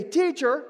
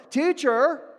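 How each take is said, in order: First: "Teacher." hurled high and loud; accusing "Teacher". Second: "Teacher." said cold and clipped, high and loud; sterile "Teacher". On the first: Retold or imitated. Disciples in the storm calling Jesus "Teacher." accusingly. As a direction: throw "Teacher" at him in frustration. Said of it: "they come back in the middle of the crisis and they say". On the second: Shown as a demonstration. Preacher stressing "Teacher." as a sterile title. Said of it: "this is a very sterile term".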